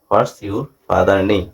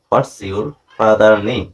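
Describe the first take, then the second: The two takes are said the same way.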